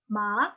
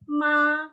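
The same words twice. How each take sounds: First: The word is said with the second tone. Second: The word is said with a flat first tone. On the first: It means sick. "tapi ton dua" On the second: It means mother. "nada satu itu ma, ma, dia datar kan"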